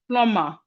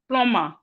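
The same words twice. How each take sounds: First: The B sound is silent in the middle. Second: The B sound is silent in the middle.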